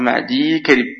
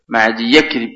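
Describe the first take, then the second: First: The y carries no vowel before karib. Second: The y is followed by an a vowel. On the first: The speaker calls it right. "ولكن الصحيح تقول معدي كرب" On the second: The speaker calls it wrong. "ولا تقول كما قلت هو شائع معدي يكرب"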